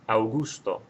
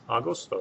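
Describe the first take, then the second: First: The word starts with an 'ow' sound. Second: The word starts with an 'ah' sound. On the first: The speaker calls it wrong. "it would sound like this" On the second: The speaker calls it right. "then just spell it like it sounds"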